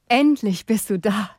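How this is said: It is said in a joyful tone.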